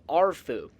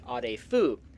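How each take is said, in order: First: The name is said with an American pronunciation. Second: The name is said with a Romanian pronunciation. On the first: This is how some game characters say it. "some of the characters in Fallout three simply say" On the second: This is how the real village name is said. "if my Romanian pronunciation is okay, the proper pronunciation would be"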